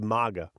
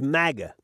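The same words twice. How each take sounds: First: The word is said with a Spanish-influenced accent. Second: The word is said with an American English accent. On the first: The speaker would be from Los Angeles. "if he was from LA because he would have like some Mexican influence, some Spanish influence" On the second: The speaker would be from New York.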